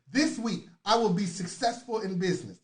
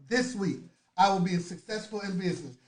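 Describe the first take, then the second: No difference in how they are said.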